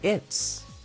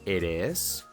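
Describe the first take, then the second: First: The words are merged into one contracted syllable. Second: Two separate full words are said. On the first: The speaker calls it right. "mejor di" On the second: The speaker calls it wrong. "En vez de decir"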